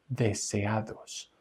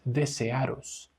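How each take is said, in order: First: The middle d is a soft th-like sound. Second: The middle d is not a soft th-like sound. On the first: The speaker calls it right. "el sonido de la D es como el sonido del th sound" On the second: The speaker calls it wrong. "Esto no es desearos, desearos no"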